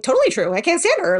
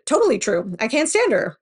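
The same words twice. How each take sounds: First: Higher, louder, bouncy quick quote; bouncy Vicky. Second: Said in the usual way. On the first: Retold or imitated. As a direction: mimic Vicky's bubbly snap answer. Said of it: "her weird kind of Vicky bouncy self". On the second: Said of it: "because of the way that Vicky answered".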